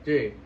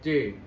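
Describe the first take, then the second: The two takes are said the same way.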